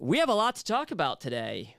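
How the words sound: Upbeat delivery with a rising, cheerful tone. A friendly welcome to the show. "I said it with like an uptone"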